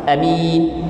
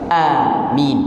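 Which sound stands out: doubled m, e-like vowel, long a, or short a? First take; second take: short a; long a. First: The first vowel is short, with a single m. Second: The first vowel is long, with a single m. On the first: "Qasar ni pendek tanpa memanjangkan" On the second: "mad ni adalah panjang"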